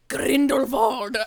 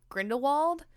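First: The middle consonant is a soft V sound. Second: The middle consonant is a clear W sound. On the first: "with a softer V" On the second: "everyone's calling him Grindelwald"

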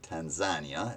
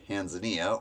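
First: The name is said the local Tanzanian way. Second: The name is said the usual American way.

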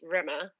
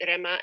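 First: The R at the start is not rolled. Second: The R at the start is rolled. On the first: "or if you can't roll your R, it's Rima" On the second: "our names are pronounced Rima and Lima"

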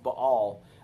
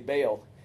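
First: The name is said closer to the Hebrew way. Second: The name is said the familiar American way. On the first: This is closer to the original language. "the Hebrew is probably more pronounced Baal" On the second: This is the traditional, familiar pronunciation. "growing up it's, you know, we always say Baal"

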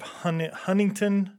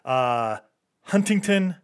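First: The middle T sound is dropped. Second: The middle T sound is pronounced. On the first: The speaker calls it wrong. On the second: The speaker calls it right.

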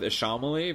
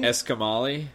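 First: The name begins with an 'ash' sound. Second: The name begins with an 'esk' sound. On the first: This is the speaker's own preferred way to say it. "that's how I like to say it" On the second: This is how Japanese streamers say the name. "they're definitely pronouncing it Eskimali"

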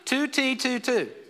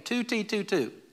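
First: It is said a little louder. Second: It is said at normal, softer volume.

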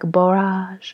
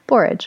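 First: The word is pronounced with a French-sounding accent. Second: The word is pronounced the usual English way. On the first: "I want to say it because I'm studying French right now, like" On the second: "I always have the hardest time with that word"

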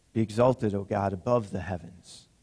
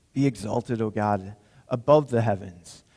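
No difference in how they are said.

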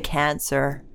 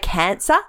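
First: It is said in an American accent, not rising. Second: It is said in an Australian accent, rising.

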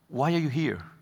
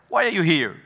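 First: It sounds like a purposeful, searching question. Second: It sounds like a dismissive, challenging question.

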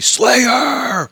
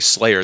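First: The word is shouted loudly with high energy. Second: The word is said calmly at normal volume. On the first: This is how fans say the band's name at shows. The speaker calls it right. "they say Slayer!" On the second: This is not how fans say the band's name. The speaker calls it wrong. "people don't say Slayer"

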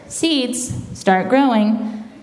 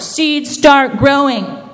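First: It is said more quietly. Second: It is said more loudly.

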